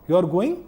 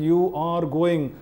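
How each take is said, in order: First: It is said as a question. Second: It is said as a command. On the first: It asks whether the listener is going. "നീ പോകുന്നുണ്ടോ എന്ന് ചോദ്യമായി" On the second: It orders the listener to go. "നീ പോകണം, അവിടെ ആജ്ഞയായി"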